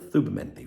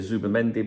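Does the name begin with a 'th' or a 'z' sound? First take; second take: th; z. First: The name begins with a soft th sound. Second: The name begins with a buzzing z sound. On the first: This is how it is said where the speaker lives. "it's pronounced the Z as the" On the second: This is how others commonly say it. "some of you will say Zubimendi"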